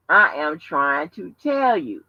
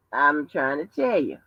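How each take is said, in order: First: Slow, "I am" fully spelled out and weighted; emphatic insistence. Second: Said in the usual way. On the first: Real, not acted. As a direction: give "I am trying to tell you" word by word. Repeats the line for emphasis.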